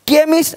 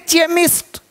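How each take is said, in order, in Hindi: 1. इस शब्द की शुरुआत k की आवाज़ से होती है। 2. इस शब्द की शुरुआत ch की आवाज़ से होती है।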